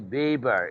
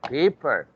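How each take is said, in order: First: The word begins with a voiced B sound. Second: The word begins with a voiceless P sound. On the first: The speaker calls it wrong. "don't say paper" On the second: The speaker calls it right. "it's paper"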